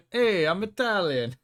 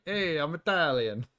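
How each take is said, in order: First: Hammed-up Italian accent, slow and high; mock Italian. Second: Slow, mock Italian accent. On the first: Streamer mocking the movie, hammed-up Italian accent. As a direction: play a cartoon Italian announcing himself. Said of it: "so we know that he's Italian". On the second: Explaining the joke to chat, slow mock Italian accent. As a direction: lay on a generic movie Italian. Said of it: "generic Italian, like, stereotype voice".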